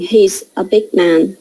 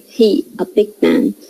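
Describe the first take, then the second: First: Said in the usual way. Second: "He" without the final s sound; zero copula. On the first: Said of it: "So instead of saying". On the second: Shown as a demonstration. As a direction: say "He" bare, straight before "a big man". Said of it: "they say".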